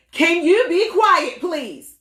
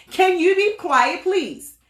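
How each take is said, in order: First: High-pitched request. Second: A plain firm yell, not high-pitched; firm request to family, yelled; exact tone yelled. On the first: Retold or imitated. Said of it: "With a high tone". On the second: Shown as a demonstration. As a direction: yell it but keep the pitch normal. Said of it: "I said in this exact tone".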